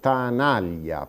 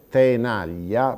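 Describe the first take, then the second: First: The first vowel sounds like a. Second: The first vowel sounds like e. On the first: This is the regional Sardinian Italian form. "pronunciamo tanaglia, perché la vocale accentata è la A" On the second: This is the standard Italian form. "Invece di pronunciare tenaglia"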